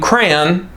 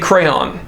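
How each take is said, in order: First: It is said as one syllable, like cran. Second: It is said as two syllables, cray-on. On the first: "I grew up saying crayon, like C R A N" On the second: "now I say crayon"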